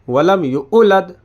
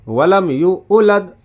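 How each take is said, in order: No difference in how they are said.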